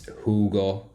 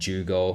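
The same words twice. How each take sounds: First: The first sound is like an English H. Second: The first sound is like an English J. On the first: The speaker calls it right. "The J is a H" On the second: The speaker calls it wrong.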